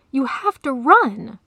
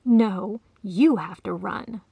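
First: Loud, slow, higher-pitched "You have to run"; "run" cried out high and loud; roared urging. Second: Firm retort leaning on "you"; "you" stressed, no shouting; hissed retort. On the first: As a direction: urge with force, landing hard on "run". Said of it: "the lion roared". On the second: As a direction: throw it back with the stress on "you". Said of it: "the cat hissed". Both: A narrator's reading.

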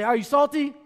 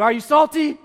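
First: Raised call to the congregation; call and response. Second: Much louder and higher, rallying the crowd; shouted call. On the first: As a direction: lead the crowd in the refrain. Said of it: "Everybody say". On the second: Pastor demanding the congregation answer louder, shouting. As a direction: shout it to get the room going. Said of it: "I can't hear you". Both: Shown as a demonstration.

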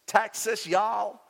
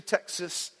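First: Hammed-up Texan American accent; mock Texas American accent; bad American accent. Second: Said in the usual way. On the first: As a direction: put on a bad Texan drawl for fun. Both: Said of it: "Sorry for the bad American accent".

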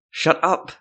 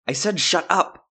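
First: Angry words forced through clenched teeth. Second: Furious. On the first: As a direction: snap it out with jaw locked tight. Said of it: "through clenched teeth". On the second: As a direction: shout it down, done arguing. Silva repeats order, furious. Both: Acted.

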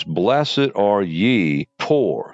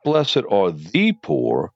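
First: Ye leaned on, very slow; Blessed are ye poor, slow with weight on ye; slow reading that singles out ye; stress on ye. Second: Said in the usual way. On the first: Shown as a demonstration. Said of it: "specifically ye".

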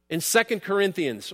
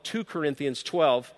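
First: Said in the usual way. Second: "two Corinthians" said slow and deliberate, the number spoken as a plain two; mock political slip. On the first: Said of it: "or as some people may call it". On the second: Shown as a demonstration. Preacher jokes to the congregation with a slow, deliberate "two Corinthians". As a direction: drawl "two Corinthians twelve" slowly as a famous blunder. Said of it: "It's my little political moment".

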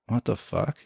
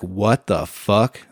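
First: Puzzled mutter. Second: Slow bewildered. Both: Retold or imitated. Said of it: "And I was like".

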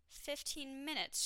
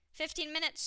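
First: High but slow, drawn-out announcement; less excited. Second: High, louder announcement; announcing. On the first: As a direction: stretch it out with dampened excitement. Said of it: "a little less excited than the last time". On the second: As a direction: announce it brightly, pitched up high. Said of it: "she announced". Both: A narrator's reading.

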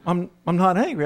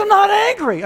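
First: Said in the usual way. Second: Very high, exasperated wife outburst; mock angry denial. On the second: Wife pressed by husband about anger, high-pitched mock-angry denial. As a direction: deny anger while audibly exploding. Wife's exploding denial, retold.

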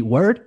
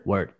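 First: "Word?" with a sharp rising question tune. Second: "Word." with a flat falling tune, as in "I agree"; falling reply. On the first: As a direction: ask "Word?" as if saying "are you serious?". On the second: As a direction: answer "Word." as a calm statement. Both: Shown as a demonstration. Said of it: "a conversation between us could be".

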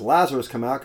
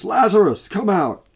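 First: Said in the usual way. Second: High, loud call into the tomb; commanding shout, higher and louder; loud cry. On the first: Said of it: "I'm assuming he says". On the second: Acted. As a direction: cry out his name to raise the dead. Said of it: "he cried out with a loud voice".

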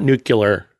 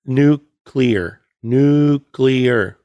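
First: Nuclear said NOO-kyuh-ler; wrong nuclear. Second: Nuclear said NOO-klee-er; correct nuclear. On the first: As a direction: say nuclear the Bush way, nucular. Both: Shown as a demonstration. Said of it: "It's not nuclear".

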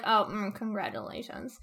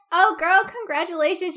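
First: Softer, flat, reluctant congratulations; grudging congratulations. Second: Higher and louder, bubbly delight; gushing congratulations. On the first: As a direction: force the word out half-heartedly. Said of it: "She's like". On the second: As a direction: gush like a thrilled best friend. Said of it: "Instead of being like". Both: Retold or imitated.

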